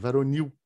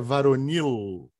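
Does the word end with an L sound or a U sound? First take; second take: U sound; L sound. First: The word ends with a U sound. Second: The word ends with a clear L sound. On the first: "Virou U" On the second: "não é varonil"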